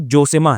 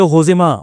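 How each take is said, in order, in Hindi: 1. नाम की शुरुआत J की आवाज़ से होती है। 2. नाम की शुरुआत H की आवाज़ से होती है। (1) "अगर हम लोग स्पेलिंग देख के पढ़ेंगे तो जोसेमा है" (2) "जे को वो लोग एच पढ़ते हैं"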